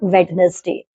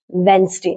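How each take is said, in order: First: The D sound is pronounced. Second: The D sound is silent. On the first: The speaker calls it wrong. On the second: The speaker calls it right. "some words in which D is silent"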